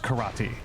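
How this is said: It is said with American English sounds. "The way that it, uh, American English usually says it is karate"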